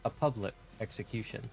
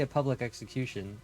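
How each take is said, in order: First: It is said with weird emphasis and intonation. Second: It is said with natural, ordinary emphasis.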